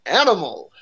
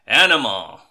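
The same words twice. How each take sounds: First: Game show host. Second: Loud shouted Animal voice. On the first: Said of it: "says his name like a game show host". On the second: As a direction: bellow the name like Animal. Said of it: "Animal has the line". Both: Retold or imitated.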